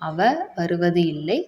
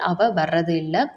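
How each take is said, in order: First: The verb ending is said fully and carefully. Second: The verb ending is shortened and run together. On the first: This is the formal way of saying it. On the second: This is the everyday spoken way of saying it.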